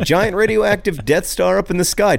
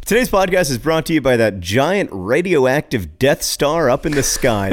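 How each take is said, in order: First: Laughing through the line; cracking up mid-sentence. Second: Said in the usual way. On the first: Real, not acted. Repeating sponsor line, cracking up.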